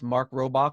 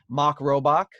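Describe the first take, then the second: First: The name is said in a general accent. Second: The name is said in a Rhode Island accent. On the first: This is how people elsewhere would say it. "but everywhere else" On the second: This is how locals in one region would say it. "in Rhode Island, it would be pronounced"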